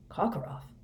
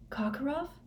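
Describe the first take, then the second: First: Hushed, whispered echo of the name; odd amusement. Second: High, soft startled gasp of a name; wild question. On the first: Moody echoes Harry's question, whispering with odd amusement. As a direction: Karkaroff whispered back as if oddly amused. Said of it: "said Moody with an odd laugh". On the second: Harry reacts to Moody's hint, wildly startled. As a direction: Karkaroff pitched high in wild disbelief. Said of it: "said Harry wildly". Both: A narrator's reading.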